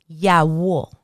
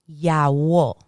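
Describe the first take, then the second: No difference in how they are said.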